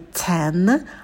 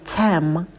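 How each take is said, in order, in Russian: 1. Слово заканчивается на звук n. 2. Слово заканчивается на звук m. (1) "не 10" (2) "а 10, чтобы был губной звук «м»"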